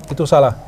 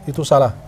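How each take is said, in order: No difference in how they are said.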